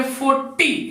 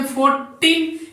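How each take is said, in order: First: फ़ोर्टी with a short ty ending, no n; teacher demo pronunciation. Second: Put-on फ़ोर्टीन with a clear long teen and final n; teacher demo pronunciation. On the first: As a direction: model फ़ोर्टी, clipping it after the t. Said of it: "इसको बोलेंगे फ़ोर्टी". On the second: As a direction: model फ़ोर्टीन, stressing the teen ending. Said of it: "इसको बोलेंगे फ़ोर्टीन". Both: Shown as a demonstration.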